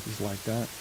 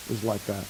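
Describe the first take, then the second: No difference in how they are said.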